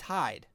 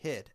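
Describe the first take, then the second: First: The vowel is long, like 'eye'. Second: The vowel is short, like in 'hid'. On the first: This is how the name is actually pronounced. "So it's Hyde. It's Hyde" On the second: This is how the spelling suggests it should sound. "H-I-D, Hid"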